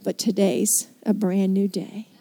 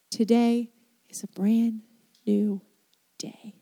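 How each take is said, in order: First: Said in the usual way. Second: Hushed, breathy whisper of the promise. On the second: Shown as a demonstration. Preacher to his congregation, in a whisper. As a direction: drop to a bare whisper. Preacher repeats the line softly.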